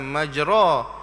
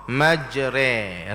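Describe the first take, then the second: First: The final vowel is a clear a sound. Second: The final vowel is an e sound. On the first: The speaker calls it wrong. "bukan majra" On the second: The speaker calls it right. "bacaannya majre"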